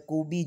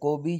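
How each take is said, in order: First: The name is said the African-accented way. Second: The name is said the standard way. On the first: "कूबी जो है वो African accent में जो है ना वो ज़्यादा बोला जाता है" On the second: "कोबी जो है वो स्टैंडर्ड प्रोनंसिएशन है"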